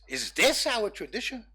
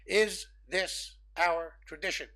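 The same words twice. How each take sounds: First: It is said with lively, varied pitch. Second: It is said in a flat, robotic monotone. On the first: "one way of intoning that is" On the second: "read it monotone, like a robot"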